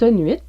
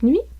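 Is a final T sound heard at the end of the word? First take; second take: yes; no. First: The word ends with an audible T sound. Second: The word ends without a T sound.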